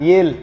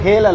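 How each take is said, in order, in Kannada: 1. ಈ ಪದ h ಶಬ್ದವಿಲ್ಲದೆ ಶುರುವಾಗುತ್ತದೆ. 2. ಈ ಪದ h ಶಬ್ದದಿಂದ ಶುರುವಾಗುತ್ತದೆ. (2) "ಅದು ಹೇಲ್ ಅಲ್ಲ"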